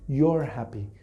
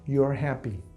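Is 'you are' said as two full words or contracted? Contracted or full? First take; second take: contracted; contracted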